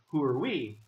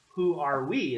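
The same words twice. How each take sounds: First: The word 'are' is reduced to a weak 'er'. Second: The word 'are' is said fully and carefully. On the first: The speaker calls it right. "Instead of saying" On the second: The speaker calls it wrong. "some Mexican students might not know the correct way to say that"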